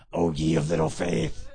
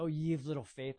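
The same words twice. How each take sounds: First: Much lower, louder playful teasing; teasing Jesus. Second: Said in the usual way. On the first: Retold or imitated. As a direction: tease him like giving a noogie. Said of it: "I kind of picture him giving Peter a noogie". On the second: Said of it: "And then Jesus goes".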